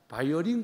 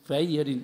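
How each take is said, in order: First: The word begins with a B sound. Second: The word begins with a V sound. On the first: The speaker calls it wrong. "그러면 안 돼" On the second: The speaker calls it right. "V를 바이올린 바이올린 이렇게 부르라는 거예요"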